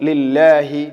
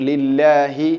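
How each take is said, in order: The two takes are said the same way.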